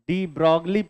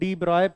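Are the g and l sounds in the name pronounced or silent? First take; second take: pronounced; silent. First: The g and l sounds are pronounced. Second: The g and l sounds are silent. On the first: The speaker calls it wrong. "इतना गलत कैसे बोल रहे हो?" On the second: The speaker calls it right. "ये जी और एल जो है वो साइलेंट है"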